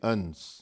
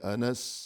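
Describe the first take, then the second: First: The name has one syllable, ans. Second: The name has two syllables, a-nas. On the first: The speaker calls it wrong. "न कि अंस" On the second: The speaker calls it right. "ये लफ्ज़ है अनस"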